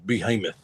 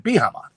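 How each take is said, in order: First: "Behemoth" said properly as "bee-hee-muth", lower and softer; correct behemoth. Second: "Behemoth" garbled as "bee-hah-mah" with both vowels off; mispronounced behemoth. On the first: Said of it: "and he goes". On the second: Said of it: "she couldn't pronounce behemoth". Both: Retold or imitated.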